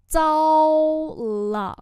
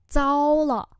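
First: Long held first syllable, louder; slow, separated repeat; slow model pronunciation. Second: Said in the usual way. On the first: Shown as a demonstration. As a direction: draw it out for learners. Teacher repeats phrase slowly.

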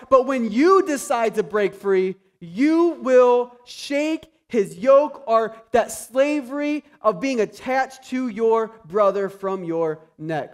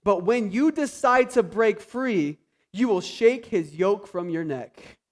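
First: Slower, louder, leaning on "yoke"; emphatic repeat. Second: Said in the usual way. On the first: Shown as a demonstration. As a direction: drive home "you will shake his yoke". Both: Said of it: "Don't miss that last part".

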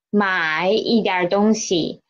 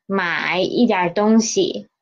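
No difference in how they are said.

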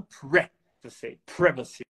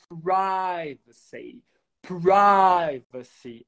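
First: "privacy" as PRIV-a-see, short first vowel; short i variant. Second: "privacy" as PRY-va-see, PRY drawn out; long i variant. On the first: Teacher gives other option, short i in privacy. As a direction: say "privacy" starting like "privilege". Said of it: "ou então". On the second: Teacher repeats privacy options, long stretched i. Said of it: "A mesma coisa com a palavra privacidade". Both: Shown as a demonstration.

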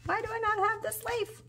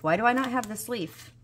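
First: Much higher, softer whine; whining to herself over a missing leaf; whiny high complaint. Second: Said in the usual way. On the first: Real, not acted. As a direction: plead the question up high. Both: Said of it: "I'm about to be upset".

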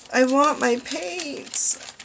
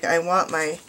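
First: High, drawn-out playful whine; impatient mock whine. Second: Said in the usual way. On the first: Crafter pining for her late paint order, mock whining. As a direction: whine it slowly like an impatient child. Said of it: "I'm waiting so impatiently".

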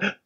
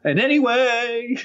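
First: Tiny whispered restart; overcorrected volume. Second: Slow, high, overloud blurt; talking too loud. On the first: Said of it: "aware of the volume of your voice". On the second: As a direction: mimic a nervous speaker with volume out of control. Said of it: "you're talking loud". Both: Acted.

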